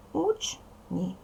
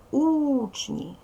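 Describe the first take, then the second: First: Учні broken into уч, pause, ні; measured syllable-by-syllable учні; split into syllables. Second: Учні with a long, higher-pitched У; stressed У drawn out in учні; stress on first syllable. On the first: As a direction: say учні as two separate syllables, уч and ні. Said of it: "Так, дивимося, дітки". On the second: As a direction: stretch and lift the У in учні, then drop on ні. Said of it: "Вимовляємо слово". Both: Shown as a demonstration.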